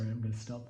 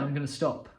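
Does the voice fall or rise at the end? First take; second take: rise; fall. First: The voice rises at the end. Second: The voice falls at the end. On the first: It sounds unsure of itself. The speaker calls it wrong. "I just did it then" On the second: It sounds confident. The speaker calls it right. "I lowered my vocal cords down"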